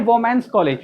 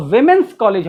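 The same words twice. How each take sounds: First: वोमेंस college with a "vo" first syllable; common mispronunciation. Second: विमेंस college with a "vi" first syllable; correct "women's" pronunciation. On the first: Retold or imitated. Teacher quoting the common error, "vo-mens college". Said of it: "कुछ लोग बोलते हैं". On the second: Shown as a demonstration. Teacher correcting the college name, "vim-ens college". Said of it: "वो होता ही नहीं".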